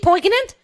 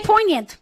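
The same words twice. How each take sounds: First: A hard g sound is pronounced in the middle. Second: No g sound is pronounced in the middle. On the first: The speaker calls it wrong. "Do you say the G is poignant" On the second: The speaker calls it right. "No, you don't say the G. You say poignant"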